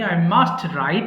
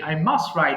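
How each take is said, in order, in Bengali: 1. must-এর t স্পষ্টভাবে উচ্চারিত হয়। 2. must-এর t নরম হয়ে যায় বা বাদ পড়ে।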